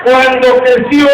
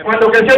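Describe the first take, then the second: First: Drawn out. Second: Said in the usual way. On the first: Shown as a demonstration.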